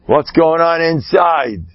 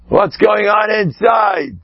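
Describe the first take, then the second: First: Said in the usual way. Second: Slow and higher, almost calling out; slow, emphatic challenge, higher in pitch; raised, pressing question. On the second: Shown as a demonstration. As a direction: press them hard on what's inside.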